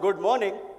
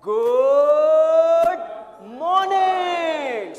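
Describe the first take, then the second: First: It is said in a dull, flat way. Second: It is said in a lively, rhythmic way.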